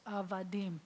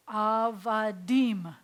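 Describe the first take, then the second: First: Said in the usual way. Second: "avadim" drawn out slowly, a-va-DIM; slow Hebrew pronunciation. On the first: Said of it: "We were slaves". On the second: Shown as a demonstration. Teacher sounds out Hebrew word slowly for students. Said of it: "So we have".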